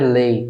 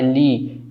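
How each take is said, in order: First: The vowel sounds like 'ay'. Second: The vowel sounds like 'ee'. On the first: The speaker calls it wrong. "não é lei" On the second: The speaker calls it right. "É li"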